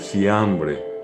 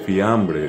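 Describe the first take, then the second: First: The word begins with an s sound. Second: The word begins with an f sound. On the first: "dice siambre" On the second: "no dice fiambre"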